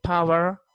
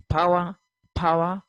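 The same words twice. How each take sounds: First: "power" said PAH-wer, final R sounded; American pronunciation. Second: "power" said PAH-wah, no final R; British pronunciation. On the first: Teacher demonstrating American speech for students, R-ful "power". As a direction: pronounce the R ending "power". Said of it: "R is pronounced at the end". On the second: Teacher demonstrating British speech for students, R-less "power". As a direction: drop the R ending "power". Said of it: "tend to drop out this sound". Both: Shown as a demonstration.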